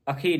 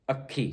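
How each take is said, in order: First: ਅੱਖੀ with a light single kh; undoubled misreading. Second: ਅੱਖੀ with a held kh; doubled kh. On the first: Teacher warning against misreading, light single-kh ਅੱਖੀ. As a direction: say ਅੱਖੀ without holding the kh. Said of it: "ਨਹੀਂ ਪੜ੍ਹਨਾ ਇਹਨੂੰ". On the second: Teacher showing the congregation, geminated ਅੱਖੀ. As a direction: close hard on the kh of ਅੱਖੀ. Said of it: "ਇੱਥੇ ਅਧਿਕ ਲੱਗੇਗਾ". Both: Shown as a demonstration.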